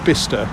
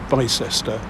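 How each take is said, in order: First: The name is said in its short local form. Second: The name is said with every written syllable. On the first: The speaker calls it right. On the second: The speaker calls it wrong.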